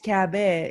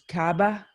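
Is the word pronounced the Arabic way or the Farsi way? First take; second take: Farsi; Arabic. First: The word is pronounced the Farsi way. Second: The word is pronounced the Arabic way. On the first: "In Farsi, it's Kaaba" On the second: "In Arabic, it's, God knows, Kaaba"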